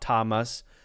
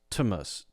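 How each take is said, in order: First: The vowel is a full short A sound. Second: The vowel is quick and reduced to schwa. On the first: "then that would be the short A sound" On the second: "It's moving very quickly"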